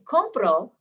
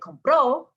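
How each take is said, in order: First: The stress is on the first syllable. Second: The stress is on the last syllable. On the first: I buy, in the present tense. "with emphasis on the second to last syllable" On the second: He, she or you bought, in the past. "I'm putting the emphasis on the last syllable"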